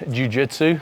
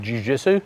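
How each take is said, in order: First: It is said with a plain English pronunciation. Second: It is said with a French-sounding pronunciation. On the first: The speaker calls it right. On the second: The speaker calls it wrong.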